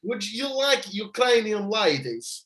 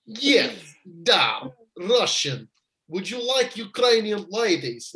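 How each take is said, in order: First: Put-on slow, higher Russian accent going astray; botched Russian accent. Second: Put-on slow, deliberate Russian accent. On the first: Retrying Roman's offer to Stubbsy, botched Russian accent. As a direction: stretch out a wobbly attempt at Russian. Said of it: "No, that's gone the same". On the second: Second go at Roman's offer, careful Russian accent. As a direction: set the Russian accent firmly, then pitch up. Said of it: "I nailed it that time".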